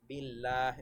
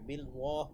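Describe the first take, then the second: First: The L sound is light and thin. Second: The L sound is heavy and full. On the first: The speaker calls it right. "পাতলা করে পড়বো" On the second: The speaker calls it wrong. "এভাবে বিল ওয়াহ পড়বো না"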